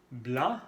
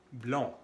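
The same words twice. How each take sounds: First: BLANC with open nasal a; nasal an sound. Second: BLANC said as blond, rounded nasal o; nasal on sound. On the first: Teacher contrasting two nasal vowels, open an. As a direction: say BLANC with open mouth, rising end. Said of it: "los sonidos A y on". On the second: Teacher contrasting two nasal vowels, rounded on. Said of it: "blanc, rubio". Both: Shown as a demonstration.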